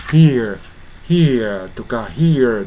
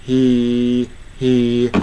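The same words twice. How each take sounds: First: "here" with a glide after the ee; diphthong version. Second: "he" as a long steady "hee"; single vowel. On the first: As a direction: let "here" move off the ee into a second sound. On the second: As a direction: stay on ee in "he", no r and no glide. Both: Shown as a demonstration. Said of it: "hereとかhereと言わないで".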